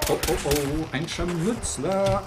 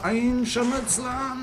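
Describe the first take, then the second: First: Alarmed. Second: High, slow panicked squeal of "Ein Scharmützler"; mock panic. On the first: Real, not acted. Spotting an enemy, alarmed. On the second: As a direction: play it like a shrieking coward. Repeated in a higher panicked voice.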